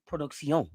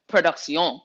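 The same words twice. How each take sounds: First: Production said the Spanish way, pro-dook-see-OH; Spanish-style production. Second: Production said with a French lilt, pro-duke-see-OH; French-style production. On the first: Hosts joking about the show name, Spanish-style pronunciation. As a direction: roll production out like a Spanish word. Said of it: "that sounds a little ... too s-, Spanish". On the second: Hosts giving the show name a French flavour, French-style pronunciation. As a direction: give production a French twist. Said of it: "we need to French it a little bit". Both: Shown as a demonstration.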